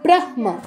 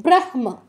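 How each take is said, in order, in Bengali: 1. 'হ' ধ্বনিটি 'ম'-এর আগে আসে। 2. 'হ' ধ্বনিটি 'ম'-এর আগে আসে।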